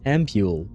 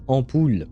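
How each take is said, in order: First: The word has the usual English pronunciation. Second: The word has a non-English pronunciation. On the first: The speaker calls it wrong. "I think you guys in English pronounce this ampule" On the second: The speaker calls it right. "but it should be pr- pronounced ampoule"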